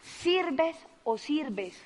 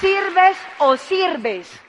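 First: "Sirves o sirves" slow and much softer, each "sirves" stretched; soft repeat. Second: "sirves o sirves" slow, high, each "sirves" stretched; emphatic slogan. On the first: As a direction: let the slogan sink in quietly. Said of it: "repeats the slogan softer". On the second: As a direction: drive the slogan home slowly. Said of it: "repeats the slogan". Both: Shown as a demonstration.

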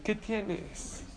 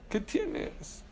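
First: Said in the usual way. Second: Pregunta susurrada, aguda y sin voz; repítelo en un susurro dramático. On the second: Shown as a demonstration. (en voz baja, como un secreto)

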